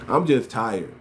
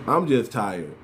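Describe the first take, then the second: No difference in how they are said.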